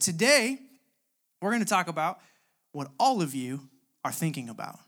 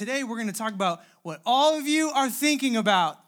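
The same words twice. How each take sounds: First: It is said plainly, without acting. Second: It is acted out, imitating the wife's manner.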